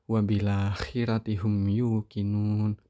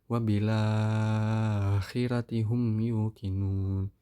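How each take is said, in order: First: The lengthened vowel is held only briefly. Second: The lengthened vowel is held very long. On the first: "mad badalnya qasr" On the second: "tul, enam harokat"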